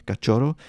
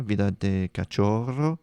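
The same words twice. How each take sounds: First: Cachorro with a Spanish ch, ka-CHO-rro, rolled r; Spanish accent. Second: Said in the usual way. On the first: Shown as a demonstration. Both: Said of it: "I was gonna do it with a Spanish accent".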